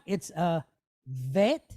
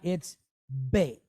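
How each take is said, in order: First: It begins with a soft V sound. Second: It begins with a strong B sound. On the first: The letter is written without a dot inside. "without the dot, it's a vet" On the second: The letter is written with a dot inside. "with the dot, it's bet"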